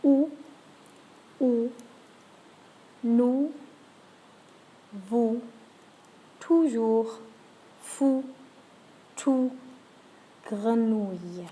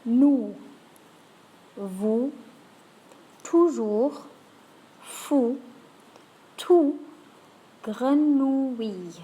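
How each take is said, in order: First: Spaced, careful list with a round ou on each; French words with ou. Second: Each word spaced and clear, "grenouille" drawn out slowly; French words with ou. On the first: Teacher runs the list a second time. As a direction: repeat "nous", "vous", "grenouille" clearly. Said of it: "go through those one more time". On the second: Teacher reads the word list for practice. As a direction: say "Nous", "vous", "toujours" with a round ou. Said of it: "let's try a few words". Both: Shown as a demonstration.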